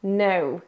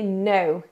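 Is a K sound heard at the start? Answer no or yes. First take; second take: no; no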